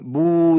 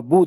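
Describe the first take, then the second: First: "бу" with a long held vowel; drawn-out, sustained "бу"; long syllable. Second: Short "бу", no lengthening; quick, plain "бу"; short syllable. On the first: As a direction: stretch the vowel of "бу" right out. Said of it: "Анан бу деп созулма". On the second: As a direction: say "бу" briefly, in one beat. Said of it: "бу деп созулма жок эле". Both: Shown as a demonstration.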